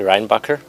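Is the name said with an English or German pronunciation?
English. The name is said in an English-style pronunciation. "probably, like that"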